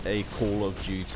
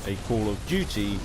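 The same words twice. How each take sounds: The two takes are said the same way.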